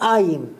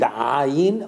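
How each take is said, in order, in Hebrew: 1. המילה מתחילה בתנועה פשוטה. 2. המילה מתחילה בהגייה גרונית. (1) "במקום זה הם אומרים א', ... אומרים עין" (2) "הם לא מצליחים להגיד עין"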